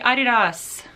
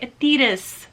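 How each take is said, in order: First: It is said the non-American way, like Adi Das. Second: It is said the American way. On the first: "I say Adidas" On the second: "If you are American, you probably say Adidas"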